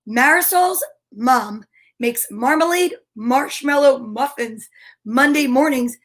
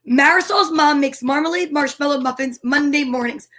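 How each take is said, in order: First: The sentence is said slowly. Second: The sentence is said fast.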